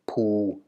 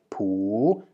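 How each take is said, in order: First: The syllable is said on a low deep tone. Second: The syllable is said on a rising tone. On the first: "With the deep tone" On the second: "The same is true for the rising tone"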